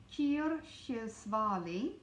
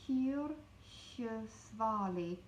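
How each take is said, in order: First: Slow careful. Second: Kyrkjesvali spelled out slowly, each syllable clear; slow careful. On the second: Teacher slowly sounding out a hard word. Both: Shown as a demonstration. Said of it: "That is a hard word".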